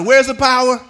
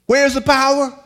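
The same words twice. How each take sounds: First: Sung-out call and response; louder call. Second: Said in the usual way. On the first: Shown as a demonstration. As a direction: give it back louder and with song. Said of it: "that sounded better". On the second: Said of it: "Let's personalize it".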